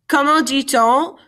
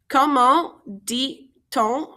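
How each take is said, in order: First: Said in the usual way. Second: "Comment dit-on" slowly, syllable by syllable; "Comment dit-on" spaced out for learners to follow; slow breakdown. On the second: Shown as a demonstration. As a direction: pause between each part of "Comment dit-on". Teacher breaks the phrase down slowly.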